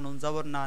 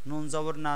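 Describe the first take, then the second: Both takes have the same delivery.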